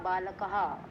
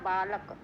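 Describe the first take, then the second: First: The word ends with an added breathy 'ha' sound. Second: The word ends without an added 'ha' sound. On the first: "उसके बाद विसर्ग है तो क्या हो जाएगा" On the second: "बालक बोलते हैं ना बालक"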